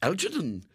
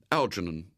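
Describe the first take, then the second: First: Higher-pitched echo of ALGERNON; questioning lady. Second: Said in the usual way. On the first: A narrator's reading. Lady repeats the boy's new name ALGERNON, questioning. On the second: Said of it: "without a second's hesitation".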